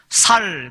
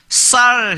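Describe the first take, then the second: First: The word begins with a plain s sound. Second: The word begins with a tense s sound. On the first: This is how speakers from one southern region say it. "쌀이 안 돼서 살, 살 그래요" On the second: This is the standard pronunciation. "쌀 해보라 그러면"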